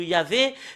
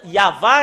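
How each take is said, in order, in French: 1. Le nom se termine par la voyelle 'ay'. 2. Le nom se termine par la voyelle 'ah'. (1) "Ça a changé Jéhovah ou Yahvé" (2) "normalement, ça doit être Yahva"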